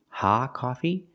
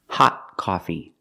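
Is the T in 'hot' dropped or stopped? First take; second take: dropped; stopped. First: The T in 'hot' is left out. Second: The T in 'hot' is a stopped T. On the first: The speaker calls it wrong. "It's not ha coffee" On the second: The speaker calls it right. "we pronounce with a stop T"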